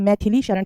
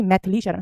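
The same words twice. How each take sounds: First: मैथिली with a clear i after th; मैथिली in three full syllables; correct full form. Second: मैथिली with no i after th; मैथिली squeezed into two syllables; wrong dropped vowel. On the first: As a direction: say मैथिली as "mai-thi-lee". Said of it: "मैथिली Sharan कहते हैं". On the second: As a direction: say मैथिली as "maith-lee". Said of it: "ना कि मैथिली Sharan". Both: Shown as a demonstration.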